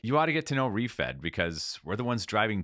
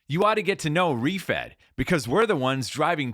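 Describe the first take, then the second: First: It is said softly, like casual conversation. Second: It is said loudly, like an energetic announcement. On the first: The speaker calls it right. "as if you're talking to a friend" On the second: The speaker calls it wrong. "perform it and shout it like"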